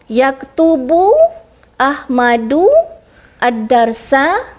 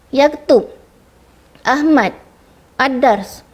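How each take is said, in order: First: Each word ends with a short final vowel. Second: Each word stops short without a final vowel. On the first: The speaker calls it right. "setiap perkataan uh, huruf yang hujung tu berbaris" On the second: The speaker calls it wrong. "semua pelajar letak baris mati"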